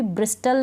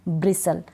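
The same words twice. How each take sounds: First: "ब्रिस्टल" with the T sounded; wrong pronunciation. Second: "ब्रिसल" with a silent T; correct pronunciation. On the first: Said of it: "इसको भी ब्रिस्टल नहीं". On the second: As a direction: drop the T from "ब्रिसल". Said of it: "टी इसमें silent है". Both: Shown as a demonstration.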